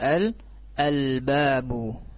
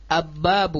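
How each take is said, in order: First: The l sound is clearly pronounced before b. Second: The l sound is merged into the b. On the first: The speaker calls it right. "dengan di izharkan al babu, ya, al babu, jelas" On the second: The speaker calls it wrong. "bukan ababu, bukan. Nah, itu salah kalau seperti itu"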